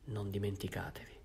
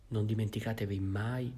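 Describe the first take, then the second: First: Softer, breath-only whisper. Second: Said in the usual way. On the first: Acted. Bishop privately reminds Jean Valjean of his promise, whispered. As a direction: whisper it close to his ear. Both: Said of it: "gli disse sottovoce".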